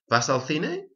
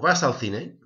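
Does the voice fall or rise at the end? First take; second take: rises; falls. First: The voice rises at the end. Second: The voice falls at the end. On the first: It asks whether you go to the cinema. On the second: It states that you go to the cinema.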